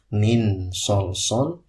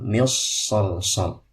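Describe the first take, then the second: First: The n is pronounced clearly and fully. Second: The n merges fully into the following s. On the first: "bukan dibaca idhar" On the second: "atau diidgham"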